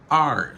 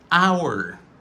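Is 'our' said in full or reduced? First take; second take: reduced; full. First: The word sounds like the letter R. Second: The word is said in its full form. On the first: "La réduction, c'est R" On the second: "c'est prononciation normale là"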